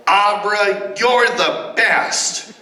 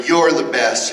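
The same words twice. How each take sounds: First: High, slow cheering call; excited yell. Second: Said in the usual way. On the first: Shown as a demonstration. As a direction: cheer her name out eagerly. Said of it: "jump up and yell". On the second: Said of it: "Yell to Abra".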